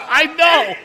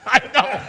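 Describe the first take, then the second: First: Much higher and louder, laughing; exasperated laughing shout. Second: Higher, louder, laughing concession; laughing admission. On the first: Comedian corrected on Lincoln mix-up, loud laughing exasperation. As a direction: belt out the embarrassed admission. Repeats it after being corrected. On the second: Comedian corrected on Lincoln mix-up, laughing admission. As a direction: own up through a laugh. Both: Real, not acted.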